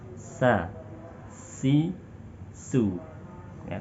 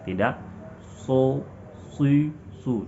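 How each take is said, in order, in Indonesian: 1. Suku kata itu terdengar ringan, dengan mulut terbuka. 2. Suku kata itu terdengar berat, dengan mulut membulat. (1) "Suara membuka, tidak mengurung"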